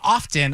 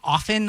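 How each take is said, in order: First: The t in the word is pronounced. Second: The t in the word is silent. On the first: The speaker is trying too hard. "you're trying too hard" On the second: The speaker is being lazy. "that's kind of lazy"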